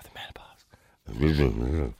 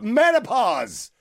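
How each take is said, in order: First: It is mumbled quietly and unclearly. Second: It is said loudly and clearly.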